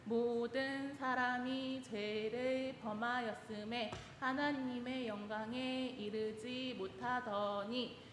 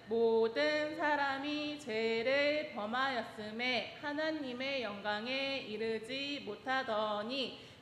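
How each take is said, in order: First: It is spoken softly in a small voice. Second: It is spoken at a normal, full volume.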